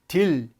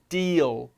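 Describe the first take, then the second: First: It ends flatly, without a dark L. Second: It ends with an extra vowel and dark L. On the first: The speaker calls it wrong. "딜 발음이 아니고" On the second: The speaker calls it right. "을이 들어가서 deal"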